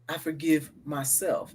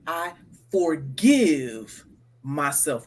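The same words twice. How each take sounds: First: The word forgive carries no special stress. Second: The word forgive is strongly stressed.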